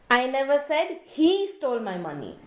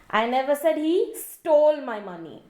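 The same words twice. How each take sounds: First: The stress is on the word he. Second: The stress is on the word stole.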